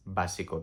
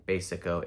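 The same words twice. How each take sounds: First: Básico said "BAH-see-ko"; Spanish vowel in básico. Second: Básico said "BAY-sico"; English vowel in básico. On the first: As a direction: open "ah" in básico, stressed first. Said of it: "there's no A sound". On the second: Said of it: "We're not saying basic and then". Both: Shown as a demonstration.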